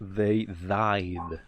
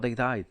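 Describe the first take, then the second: First: It is said with exaggerated, mocking intonation. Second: It is said plainly, without exaggeration. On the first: The speaker mocks the question as obvious. "si lo exageras" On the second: The speaker is simply stating a fact. "si no quieres responder con sarcasmo, no usas ese acento"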